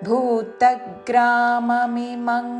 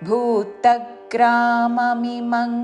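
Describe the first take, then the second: Both takes have the same delivery.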